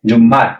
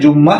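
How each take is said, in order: First: The word ends with a t sound. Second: The word ends on an open vowel. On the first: This is how native speakers of the language say it. "ওরা বলে জুম্মাত" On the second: This is how speakers of the speaker's own language say it. "আমরা বলি জুম্মা"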